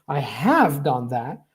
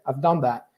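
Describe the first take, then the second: First: The stress falls on have, said in full. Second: The stress falls on done; have is reduced. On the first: "this main stress happens to be on the modal verb" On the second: "it's not stressed. I've done. Done is a stress"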